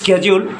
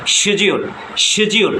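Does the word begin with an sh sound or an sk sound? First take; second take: sk; sh. First: The word begins with an sk sound. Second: The word begins with an sh sound. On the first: "আমেরিকানরা বলে স্কেজিউল" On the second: "ব্রিটিশরা বলে শিডিউল"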